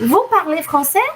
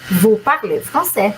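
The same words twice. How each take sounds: First: It is said with question intonation. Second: It is said with statement intonation. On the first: The speaker is asking whether you speak French. "só a entonação" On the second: The speaker is asserting that you speak French. "E se eu quiser afirmar"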